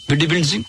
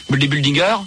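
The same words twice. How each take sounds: First: Said in the usual way. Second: "Bodybuildinger" with an extra -er ending; slip on the word. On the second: Real, not acted. Host garbling the word before correcting himself, slip.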